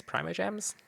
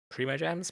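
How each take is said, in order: First: PRIMO said "PRY-mo", rising high; questioning alternative pronunciation. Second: PRIMO said "PREE-mo", rising; questioning pronunciation. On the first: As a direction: try Primo with an "eye" vowel, unsure. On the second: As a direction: try Primo with an "ee" vowel, unsure. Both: Real, not acted. Trying two pronunciations of a term.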